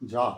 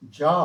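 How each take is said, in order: First: جا clipped short with a quick zabar. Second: جا stretched long with the alif, louder; lengthened jaa. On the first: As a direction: keep جا brief. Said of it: "جیم زبر". (چھوٹا جا، صرف زبر) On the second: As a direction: draw out جا a little. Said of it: "پھر تھوڑا سا لمبا". (تھوڑا سا لمبا جا) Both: Shown as a demonstration.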